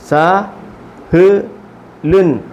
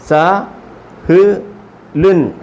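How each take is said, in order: No difference in how they are said.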